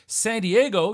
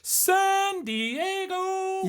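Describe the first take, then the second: First: It is said flatly, with little pitch movement. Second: It is said dramatically, with pitch climbing then falling. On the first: The speaker calls it wrong. "You can't just say San Diego" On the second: The speaker calls it right. "You got to go San Diego. It's like a ladder that you have to climb and bring that ladder down"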